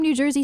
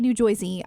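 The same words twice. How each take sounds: First: It is said in a plain local accent. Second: It is said in an imitated Boston-like accent. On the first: This is how locals say it. The speaker calls it right. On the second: This is how outsiders say it. The speaker calls it wrong.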